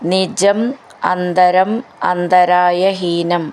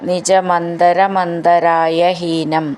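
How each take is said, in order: First: The words are said as separate words. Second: The words are run together into one.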